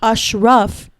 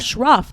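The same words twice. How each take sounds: First: The vowels sound closer to a u sound. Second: The vowels sound like the a in ash. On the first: The speaker calls it right. "just pretend it's U's instead of A's" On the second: The speaker calls it wrong. "that's not how you say his name"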